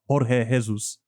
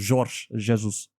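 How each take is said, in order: First: The J sounds like a breathy H. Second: The J sounds like an English J. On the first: The speaker calls it wrong. "It's not Jorge Jesus" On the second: The speaker calls it right. "you you do pronounce the J"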